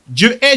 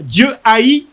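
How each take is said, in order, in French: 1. Le verbe se prononce en une seule syllabe, comme 'est'. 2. Le verbe se découpe en deux syllabes, 'ha-ït'. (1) "Les gens vont penser que c'est E S T" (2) "je vais faire exprès de prononcer ça comme ça"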